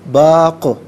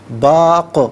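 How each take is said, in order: No difference in how they are said.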